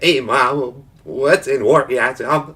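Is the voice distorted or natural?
distorted. It is said in a put-on, modulated voice.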